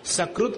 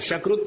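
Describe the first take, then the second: First: The word begins with an s sound. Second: The word begins with an sh sound. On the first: The speaker calls it right. "सकृत कहना" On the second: The speaker calls it wrong. "शकृत मत कहना"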